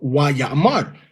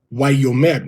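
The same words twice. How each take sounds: First: "Why Ya'amar" with two open a sounds. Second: "Why Yomer" with a rounded o. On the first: Teacher showing what students were taught, Ya'amar. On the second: Teacher repeating the correct form, Why Yomer. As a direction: say "Yomer" as yo-mer. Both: Shown as a demonstration. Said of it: "we were taught".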